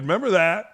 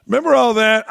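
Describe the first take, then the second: First: Said in the usual way. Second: Higher, louder, stressing REMEMBER; louder incredulous repeat of Remember; louder emphatic repeat. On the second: Real, not acted. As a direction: push the question harder.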